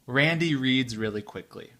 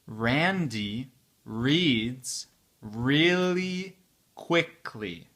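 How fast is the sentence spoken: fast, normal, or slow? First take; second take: fast; slow. First: The sentence is spoken at a very fast speed. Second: The sentence is spoken at a slow speed. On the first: "très vite pour la quatrième fois" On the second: "c'est la vitesse lente"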